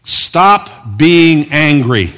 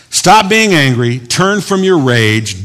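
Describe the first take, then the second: First: Slow, stretched, with a pretend angry edge; mock angry command. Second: Calmer retake, slow but still raised; gentle plain counsel. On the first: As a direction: play at scolding them slowly. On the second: Shown as a demonstration. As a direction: say it again as gentle advice. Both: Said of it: "I was being angry there".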